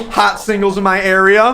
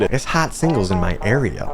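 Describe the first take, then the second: First: Hot singles in my area pitched up like a spam ad; cheesy ad pitch. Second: Said in the usual way. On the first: Acted. Reading a phone roulette ad as a pitched-up cheesy promo. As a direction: sell it like a late-night hotline ad. Ad voice versus flat comment.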